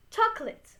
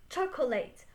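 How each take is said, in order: First: Chocolate in two syllables, "CHOK-lit"; correct chocolate pronunciation. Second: Chocolate said fully spelled out, ending in "late"; mispronounced chocolate. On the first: Teacher modelling the word for learners, correct chocolate pronunciation. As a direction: say chocolate short, middle vowel dropped, ending in "lit". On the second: Teacher showing learners what not to say, mispronounced chocolate. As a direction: say chocolate the wrong way, last syllable like "late". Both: Shown as a demonstration. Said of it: "be focused also in my pronunciation".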